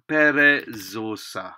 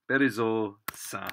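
First: Perezosa spoken slowly, each syllable separate, a bit louder; slow model word. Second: Said in the usual way. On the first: Shown as a demonstration. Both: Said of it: "a little".

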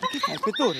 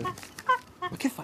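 First: Said in the usual way. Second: High, very slow, scandalised cry; shocked. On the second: Acted. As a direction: stretch it out in disbelief. Harry shocked at the inspector. (stupore scandalizzato, acuto e lentissimo)

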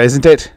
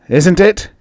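First: Said in the usual way. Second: "Isn't it?" repeated much higher, pressing and louder; insistent repeat. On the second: A narrator's reading. Drunk farmer pressing his friend, louder insistent repeat. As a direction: demand an answer this time. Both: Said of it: "He raised his voice".

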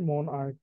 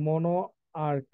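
First: "মন আর্ক" joined, without the o after মন; shortened form. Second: "মনো আর্ক" as two parts, with the final o of মনো sounded; full form, split. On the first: Teacher showing the short form, "মন আর্ক" with o dropped. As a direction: run "মন" straight into "আর্ক". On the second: Teacher showing where the word comes from, full "মনো আর্ক" in parts. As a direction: say "মনো", pause, then "আর্ক". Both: Shown as a demonstration. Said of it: "এটা থেকে শর্টে আসছে".

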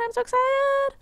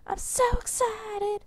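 First: Squeaky high excited voice; voice cracking. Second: High excited voice breaking; slower, cracking squeal of excitement. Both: Real, not acted. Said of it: "My voice just cracked really bad".

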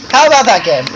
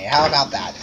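First: Louder take. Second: Quieter take. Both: Shown as a demonstration. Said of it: "How would you like me to say".

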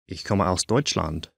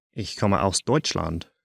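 Both takes have the same delivery.

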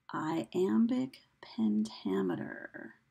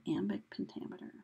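First: Very slow teacherly enunciation of the term; slow sounding-out. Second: Said in the usual way. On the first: Shown as a demonstration. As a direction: draw out "iambic pentameter" slowly, part by part.

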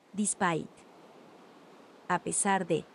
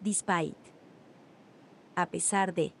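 Both takes have the same delivery.

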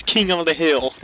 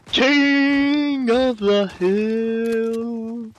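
First: Said in the usual way. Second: Very slow, stretched-out KING of the hill; drawn-out echo. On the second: Pretend. Player echoing the game's goal, KING long drawn out. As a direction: hold KING long and draw out the rest.

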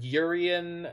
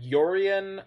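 First: Urian said slowly as YUR-ee-un; heard pronunciation. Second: Yorian said slowly as YOR-ee-un; heard pronunciation. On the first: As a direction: open Urian with YUR, stressed. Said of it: "I've heard Urian". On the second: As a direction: open Yorian with YOR, stressed. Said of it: "I've heard Yorian". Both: Shown as a demonstration.

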